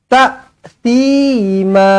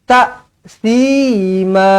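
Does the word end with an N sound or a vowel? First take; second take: vowel; vowel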